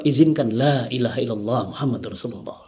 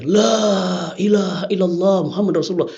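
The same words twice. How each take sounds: First: Low, soft voicing of the shahada; quiet last request. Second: Retold cry out. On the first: Condemned man asks leave to say his final shahada, quiet and low. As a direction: retell the plea gently, well below usual pitch. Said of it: "Dia bilang apa?". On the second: Bound prisoner cries the shahada before the firing squad, restrained retold call. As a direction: call it out long, without really shouting. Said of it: "teriak dia".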